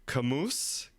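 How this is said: The name is said with an American accent.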